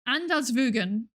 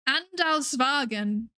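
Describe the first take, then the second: First: The marked vowel is an oo sound. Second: The marked vowel is not an oo sound. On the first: "That's an oo sound, isn't it?" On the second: "No, no, no"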